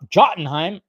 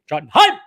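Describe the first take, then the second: First: It is said in his plain own voice. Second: It is said in a harsh, put-on German voice.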